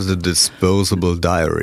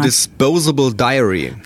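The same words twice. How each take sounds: First: It is spoken in a deep, throaty voice. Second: It is spoken in a normal, plain voice.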